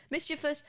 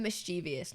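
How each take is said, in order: First: "Mischievous" as MIS-chi-vus; three syllables in "Mischievous", stressed on the first; correct pronunciation. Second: "mischievous" as mis-CHEE-vee-us; four syllables in "mischievous", stressed on CHEE; common mispronunciation. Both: Shown as a demonstration. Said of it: "there's two words here".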